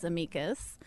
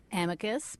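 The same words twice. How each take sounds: First: "amicus" as uh-MEE-kus, stress on MEE; Latinists' pronunciation. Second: "Amicus" stressed on the first syllable, AM-ih-kus; usual mispronunciation. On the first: Guest quoting Latin-speaking friends, uh-MEE-kus. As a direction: say "amicus" with a long ee in the middle. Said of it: "fluent in Latin say it's". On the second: Podcaster admitting how the show's name is said, AM-ih-kus. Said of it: "we pronounce the show wrong". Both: Shown as a demonstration.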